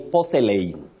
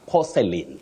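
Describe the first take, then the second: First: The 'a' in the last syllable is pronounced. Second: The 'a' in the last syllable is silent. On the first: The speaker calls it wrong. "Many people say porcelain, but we don't say porcelain" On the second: The speaker calls it right. "It's porcelain. The A in that word is silent"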